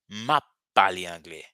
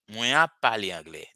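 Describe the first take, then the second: First: The first words are run together and shortened. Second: The first words are said in full. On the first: The speaker calls it right. "It is a short form" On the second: The speaker calls it wrong. "It sounds a little bit not natural"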